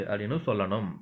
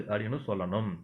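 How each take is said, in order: No difference in how they are said.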